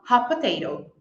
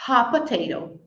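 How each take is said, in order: Both takes have the same delivery.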